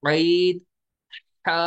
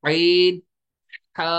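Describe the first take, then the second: No difference in how they are said.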